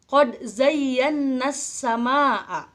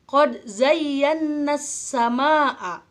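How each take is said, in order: Both takes have the same delivery.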